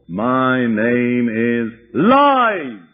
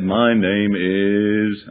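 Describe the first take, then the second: First: Louder, very slow roaring demon voice; demon's loud roar. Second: A lightly voiced gruff demon, very slow and dragged out. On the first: Retold or imitated. Demon finally naming itself to the preacher, loud roar. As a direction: roar the name out so it fills the church. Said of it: "came a loud roar". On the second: Demon answering the preacher, slow and lightly gruff. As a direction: stretch each word like a reluctant demon. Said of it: "deep, harsh, gruff, masculine-sounding voice".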